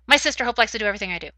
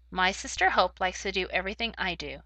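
First: The words are read very quickly, rushed together. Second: The words are read at a steady, natural speed. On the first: The speaker calls it wrong. "But if you read too quickly, no one will be able to understand what you are saying" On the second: The speaker calls it right. "If you read at the correct pace, ... It sounds just right"

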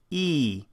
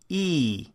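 Both takes have the same delivery.

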